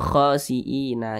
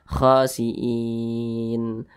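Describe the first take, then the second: First: The word ends with an added a vowel. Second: The word ends on a bare n sound. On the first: The speaker calls it wrong. "Jangan dibaca khosiina" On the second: The speaker calls it right. "huruf nunnya disukunkan atau dibaca mati"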